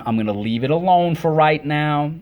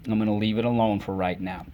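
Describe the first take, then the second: First: Raised take. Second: Said in the usual way. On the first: Shown as a demonstration.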